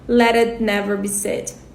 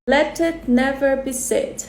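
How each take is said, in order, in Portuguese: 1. Ela é dita com um sotaque não britânico. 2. Ela é dita com uma tentativa de sotaque britânico. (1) "Eu já falaria" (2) "Tentei aqui com o meu máximo do meu inglês britânico"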